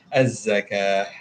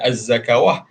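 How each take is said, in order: First: The word ends without a 'w' sound. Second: The word ends with an added 'w' syllable. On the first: The speaker calls it right. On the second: The speaker calls it wrong.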